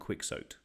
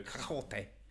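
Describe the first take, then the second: First: Quixote is said with an anglicized pronunciation. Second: Quixote is said with a Spanish-style pronunciation. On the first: It imitates someone's quirky way of saying it. "he loves saying it differently" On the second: It is how most people would say it. "We'd really Spanish up the old Quixote"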